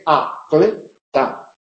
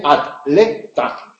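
First: Atleta said a-tle-ta, with the tl kept together at the start of one syllable; Mexican pronunciation. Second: Atleta said at-le-ta, with the t closing the first syllable; Spanish pronunciation. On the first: Teacher showing the class the Mexican atleta, tl joined. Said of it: "En México se dice". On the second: Teacher showing the class the Spanish atleta, t and l split. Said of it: "en España se dice". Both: Shown as a demonstration.

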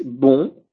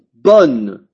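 First: BON with nasal vowel, no N sounded; nasal masculine BON. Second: BONNE with oral O and released N; oral O plus N. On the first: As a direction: end BON in the nose, tongue not touching for N. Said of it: "Ya no se pronuncia como O". (BON nasal, sin N final) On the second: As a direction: lengthen BONNE, sounding the final N. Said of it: "se va a pronunciar como O y N". (BONNE con O oral y N pronunciada) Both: Shown as a demonstration.

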